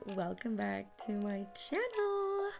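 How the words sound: It is said in a high-pitched voice.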